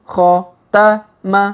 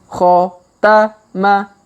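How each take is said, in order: No difference in how they are said.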